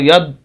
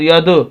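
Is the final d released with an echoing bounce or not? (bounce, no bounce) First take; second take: no bounce; bounce. First: The final d ends without an echoing bounce. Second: The final d ends with an echoing bounce. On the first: The speaker calls it wrong. "आवाज़ को नहीं रोकते" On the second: The speaker calls it right. "ये कलकला है"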